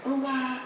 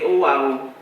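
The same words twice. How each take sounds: First: It is said with an English accent. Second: It is said with a Yoruba accent.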